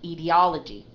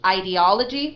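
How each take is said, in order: First: The first vowel is a short I sound. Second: The first vowel is a long I sound.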